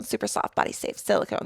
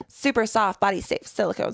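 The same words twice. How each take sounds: First: Whispered tongue twister. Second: Said in the usual way. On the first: Shown as a demonstration. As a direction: whisper the phrase "Super soft, body safe silicone" with no voice. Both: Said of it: "try saying that five times fast".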